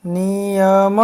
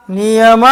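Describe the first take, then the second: First: નિયમ stretched out syllable by syllable. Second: Loud drill word. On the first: First slow reading of the word list. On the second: Teacher leads children to repeat after them, loudly. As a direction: call out નિયમ firmly for repeating. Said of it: "બોલજો જોરથી". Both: Shown as a demonstration.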